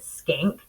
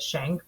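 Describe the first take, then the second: First: The name begins with an 'sk' sound. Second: The name begins with an 'sh' sound. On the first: This is how the family says the name. "they pronounce it Skank" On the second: This is how most people say the name. "most people do pronounce it Shank"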